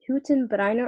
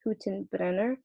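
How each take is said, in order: First: Hüttenbrenner said as HOO-ten-BRY-ner; first pronunciation option. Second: Hüttenbrenner said as HOO-ten-BREN-ner; alternative pronunciation. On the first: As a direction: say Hüttenbrenner with an "eye" vowel in brenner. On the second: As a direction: say Hüttenbrenner with a short "eh" in brenner. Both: Shown as a demonstration. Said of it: "I don't know if it's".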